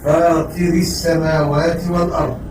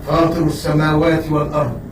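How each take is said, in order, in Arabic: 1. تنتهي الكلمة الأولى بالصوت i. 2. تنتهي الكلمة الأولى بالصوت a. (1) "والكسر" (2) "بالفتح"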